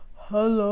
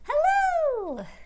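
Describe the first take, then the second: First: It is said in a very low voice. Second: It is said in a very high voice.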